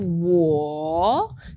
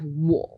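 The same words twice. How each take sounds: First: The tone dips and rises in a long, round contour. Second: The tone stays low and is cut off quickly. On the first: "that sort of round third tone" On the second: "which is just a little bit curt"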